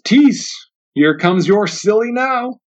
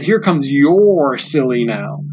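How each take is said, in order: First: Drawn-out taunt, slow on now; mocking porch man. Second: "Here" stressed and the line said slowly. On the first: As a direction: sneer it at the boss, lingering on now. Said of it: "one of the men on the porch says". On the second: Shown as a demonstration. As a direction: press on "Here", let the rest drag slowly. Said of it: "even the idea of how it's said".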